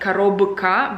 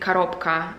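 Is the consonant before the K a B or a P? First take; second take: b; p. First: The consonant before the K is a B. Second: The consonant before the K is a P. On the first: "when you write it down, it's коробка" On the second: "with p sound more like"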